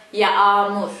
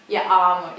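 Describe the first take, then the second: First: Yağmur with a short clipped a; wrong pronunciation. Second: Yağmur with the a held long; correct pronunciation. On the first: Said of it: "It's not like that". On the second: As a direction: say yağmur as yaamur, long vowel. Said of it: "Normally it's like double A here". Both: Shown as a demonstration.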